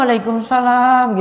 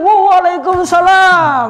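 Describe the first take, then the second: First: It is said flatly with low energy. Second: It is said with very high energy.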